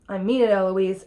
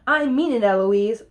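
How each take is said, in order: First: Firm warning, little raised; lightly voiced stern tutor; insist, holding the temper down; angry tutor. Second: Cheeky copycat echo; mimicking right back. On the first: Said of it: "Here's what makes Philip angry". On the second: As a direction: throw the tutor's words straight back. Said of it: "right back at him".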